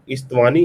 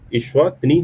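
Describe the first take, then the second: First: The name is said like 'Istwani'. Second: The name is said like 'Eswatini'. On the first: The speaker calls it wrong. "यहाँ पे इस्तवानी नहीं pronounce करेंगे" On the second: The speaker calls it right. "इस वतनी है"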